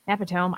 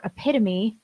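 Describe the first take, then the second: First: Epitome. said as EP-i-tome; epitome. in three syllables, rhyming with home; mispronounced epitome. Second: Epitome said as e-PIT-o-mee; epitome in four syllables, ending in mee; epitome correctly. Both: Retold or imitated. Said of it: "E is for epitome".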